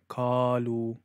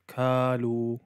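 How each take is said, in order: First: It begins with a light k sound. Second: The same.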